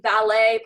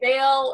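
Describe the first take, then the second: First: The name is said like the word valet. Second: The name is said like the word vale. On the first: "or Valet, park, like the parking" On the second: "people say Vale"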